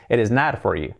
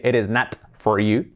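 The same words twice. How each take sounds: First: "It is not for you" with the T of "not" softened to a tapped R; smooth, flapped T in "not"; soft R. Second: "it is not for you" with a full T in "not"; marked T at the end of "not"; sounded T. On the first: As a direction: link it as "eres nar for you". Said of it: "se convierte en una R suave". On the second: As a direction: release the T of "not" clearly. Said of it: "la T de not no se dice". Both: Shown as a demonstration.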